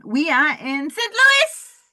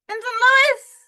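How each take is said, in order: First: Slow, louder, rising announcement of Saint Louis; building up to the city name; announcing the city. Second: Much higher, louder squeal on Louis; excited fan squealing Saint Louis; high squeal of the city. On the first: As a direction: announce it slowly like a ring announcer. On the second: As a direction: squeal the city name in delight. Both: Pretend. Repeats the city name with flair.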